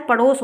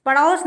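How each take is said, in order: First: Said in the usual way. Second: पड़ोस with an open "au", as "paṛaus"; wrong pronunciation. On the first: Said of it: "पड़ोस होता है". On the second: Shown as a demonstration. Teacher shows the misspelling, said with "au". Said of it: "पड़ोस नहीं होता है".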